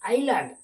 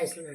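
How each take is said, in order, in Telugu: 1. S శబ్దం పలకదు. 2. S శబ్దం పలుకుతుంది. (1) "ఎస్ సైలెంట్ లెటర్ ఐలాండ్" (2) "చాలా మంది అంటారు ఐస్లాండ్"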